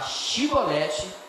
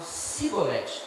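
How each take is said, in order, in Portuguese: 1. A palavra começa com o som de 'sh'. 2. A palavra começa com o som de 's'. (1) "Em vez de falar chibolete" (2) "eles falavam cibolete"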